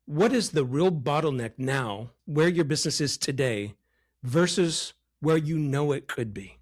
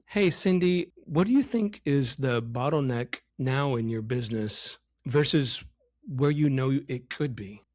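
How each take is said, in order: First: Deliberate question with weight on "versus" and "could"; emphatic question. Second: Bland question with no emotion in it; too soft, boring. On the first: Coach modelling the third question properly, emphatic delivery. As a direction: ask it with feeling, pausing before "versus". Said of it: "let me say the last question again". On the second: Coach showing how not to ask Cindy, boring delivery. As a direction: ask it without any feeling, as a bad example. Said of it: "It's too soft. It's too boring". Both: Shown as a demonstration.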